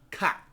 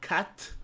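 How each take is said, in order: First: The final t is stopped without releasing air. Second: The final t is released with air. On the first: The speaker calls it right. "they usually stop the sound and they don't release the air" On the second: The speaker calls it wrong. "not cat"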